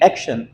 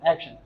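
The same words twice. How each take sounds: First: A full vowel is heard between sh and n. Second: The n follows sh with no vowel between. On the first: The speaker calls it wrong. "इसको हम लोग आमतौर पे कहते हैं एक्शन" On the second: The speaker calls it right. "इनके बीच में कोई भी और साउंड नहीं है"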